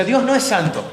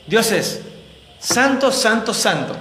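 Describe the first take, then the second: First: Said in the usual way. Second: Each "santo" hit hard, the first one highest; triple emphasis. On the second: Shown as a demonstration. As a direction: ring out "santo, santo, santo" as one rising proclamation. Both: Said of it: "No santo".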